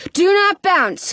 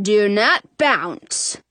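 First: NOT punched, slow and higher; stress on NOT. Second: "Do not bounce" slow, low and hushed; slow whispered plea. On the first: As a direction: hit the word NOT in "Do not bounce". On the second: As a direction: beg "Do not bounce" slowly under the breath. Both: A narrator's reading. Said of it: "pleading inwardly".

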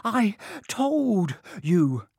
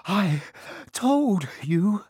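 First: Slow drawn-out told, high and falling; insistent repeat. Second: Higher, louder gasping words; breathless and a touch higher; gasped. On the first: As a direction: stretch every word of I told you. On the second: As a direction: gasp it out with a stitch. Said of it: "Hermione gasped". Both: A narrator's reading.

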